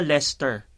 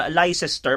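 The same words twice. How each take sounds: First: 'Leicester' as LES-ter; actual pronunciation. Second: 'Leicester' slowly as LAI-ses-ter; mistaken spelling pronunciation. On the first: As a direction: say 'Leicester' in two syllables. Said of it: "yung pala". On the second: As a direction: misread 'Leicester' in three syllables. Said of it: "Akala ko ganun siya i-pronounce". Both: Shown as a demonstration.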